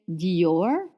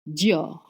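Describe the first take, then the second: First: The word is split into two syllables. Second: The word is said as one syllable. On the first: The speaker calls it wrong. "We didn't say Dior" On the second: The speaker calls it right. "It's actually one syllable"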